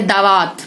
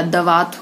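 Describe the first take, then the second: First: दावात with a long "aa" in the first syllable; mispronounced vowel. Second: Said in the usual way. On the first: Shown as a demonstration. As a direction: stretch the first vowel of दावात to "daa-vaat". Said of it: "दावात नहीं होता". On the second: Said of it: "दवात होता है".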